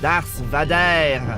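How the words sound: The name is said with a French accent.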